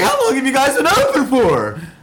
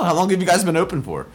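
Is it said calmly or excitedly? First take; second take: excitedly; calmly. First: It is said in an excited radio-host voice. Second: It is said in a calm, normal voice.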